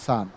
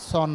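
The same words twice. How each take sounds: First: সান with an open "a"; correct vowel. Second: সন with a rounded "o"; wrong vowel. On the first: Teacher telling students the form to use, open vowel. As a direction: model সান, sounding just like sun. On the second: Teacher telling students what to stop saying, mispronounced. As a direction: cite সন as the old habit. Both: Shown as a demonstration. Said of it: "আর সন না বলি".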